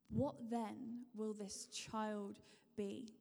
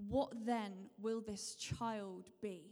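No difference in how they are said.

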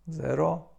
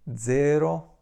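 First: Said in the usual way. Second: Zero starting with dz, like dzero; Italian z as dz. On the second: Shown as a demonstration. Teacher saying the Italian zero with dz. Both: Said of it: "wymawiamy to jako dz".

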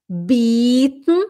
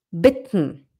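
First: "Bitten" as bieten, long drawn-out ee, rising. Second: "bitten" with a short, lax i, lower and falling. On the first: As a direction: stretch the vowel in "Bitten" into a long ee. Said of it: "o bitten é oferecer". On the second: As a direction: clip the vowel in "bitten" short. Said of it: "O bitten é pedir". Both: Shown as a demonstration.

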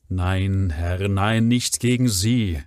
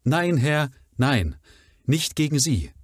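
First: Said in the usual way. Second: Higher, loud plea, stress on "nein" and "gegen"; pleading woman's cry. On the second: Shown as a demonstration. Mrs Barrymore protests her loyalty to Sir Henry, pleading. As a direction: beg him to believe her. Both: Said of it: "das passiert beim Prima Vista Lesen".

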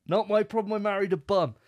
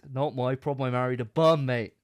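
First: Much higher, louder hammed-up protest; high, loud mock outrage repeating the line; hammed-up indignant. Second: Louder mock protest, leaning on bum; a hint of a fed-up husband, louder; mock indignant. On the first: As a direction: squeal it like an outraged husband. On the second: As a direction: state it flatly like a fed-up husband. Mock husband's defence, first take.

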